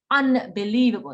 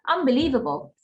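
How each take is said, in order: First: Said slowly with a clear n before b. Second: Said fast with the n turning into m. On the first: "if I was saying it slowly" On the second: "But if I said it fast"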